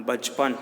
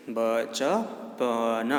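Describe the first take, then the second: First: Said in the usual way. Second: Put-on teacher sounding out बचपन syllable by syllable for children; split into syllables. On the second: Shown as a demonstration. Teacher spelling out a word for pupils, syllable by syllable.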